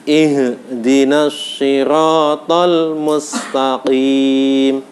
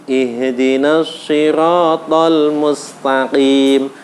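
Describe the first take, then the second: Both takes have the same delivery.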